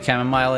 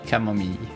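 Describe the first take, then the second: First: The word is pronounced with English sounds. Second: The word is pronounced with French sounds. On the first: "It's actually chamomile in English?" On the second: "in French, you pronounce this tea"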